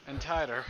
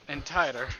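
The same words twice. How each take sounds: The two takes are said the same way.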